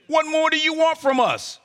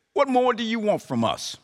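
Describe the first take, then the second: First: What more do you want from us raised high, leaning on want; sarcastic demand. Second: Said in the usual way. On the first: Acted. People of Israel sarcastically demanding from God. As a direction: fling it at God like a complaint. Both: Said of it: "Can you sense the sarcastic tone".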